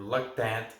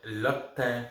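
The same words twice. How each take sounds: First: "Loctant" sounded out with a final t; slow second guess, "Loctant" ending in nt; alternative pronunciation. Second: "Loctin" sounded out slowly, ending in n; slow, careful guess at "Loctin"; tentative pronunciation. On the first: Beer reviewer offering the other version of the name, alternative pronunciation. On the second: Beer reviewer offering one version of the name, tentative pronunciation. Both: Real, not acted. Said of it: "Don't know how to pronounce it".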